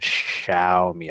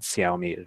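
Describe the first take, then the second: First: The word begins with a 'sh' sound. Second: The word does not begin with 'sh'. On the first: The speaker calls it right. "S H" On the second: The speaker calls it wrong. "not Xiaomi"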